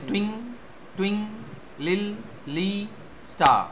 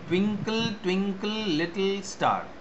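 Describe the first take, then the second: First: The final syllable of 'twinkle' is dropped. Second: Every syllable of 'twinkle' is fully pronounced.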